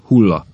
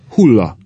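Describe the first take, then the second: First: Said in the usual way. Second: Louder, insistent repeat with a falling tone; pointed, pushing one-word prompt; urgent prompt. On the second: A narrator's reading. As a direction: press urgently for an answer. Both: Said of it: "ismételte a professzor sürgetően".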